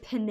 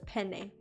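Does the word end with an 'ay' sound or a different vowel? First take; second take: different vowel; ay sound. First: The final vowel is not an 'ay' sound. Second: The final vowel sounds like 'ay'. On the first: The speaker calls it wrong. "Instead of penne" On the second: The speaker calls it right. "the E at the end is pronounced like the E in hay. And the emphasis is placed on the first syllable"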